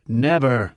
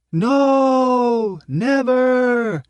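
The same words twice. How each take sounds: First: Said in the usual way. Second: High, loud mob shout; crowd roar. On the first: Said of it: "agreed Prof". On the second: A narrator's reading. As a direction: roar it back, defiant. Crowd roars refusal.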